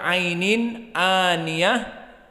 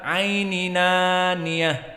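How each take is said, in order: First: A glottal stop separates the n from the vowel. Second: The n runs straight into the next vowel. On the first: This is the majority reading. "jumhur membaca ainin aniyah" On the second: This is the Warsh reading. "Waras membaca aininaniyah"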